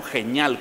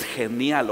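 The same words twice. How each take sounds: First: Second "genial" squashed to "heh-NYAL"; slangy mispronunciation. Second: Said in the usual way. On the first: Shown as a demonstration. Preacher offering congregation either version, "genial" mispronounced as "geñal". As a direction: say "genial" with ñ replacing the ni. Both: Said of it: "como usted quiera pronunciarlo".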